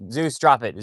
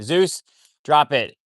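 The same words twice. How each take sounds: First: Loud, firm order to the dog; firm command. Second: Slow, loud, with the weight on Zeus; slow drawn-out command. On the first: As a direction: tell the dog off sharply. Ordering the dog to drop something. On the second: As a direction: drag the order out so the dog gets it. Repeats the order to the dog. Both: Real, not acted.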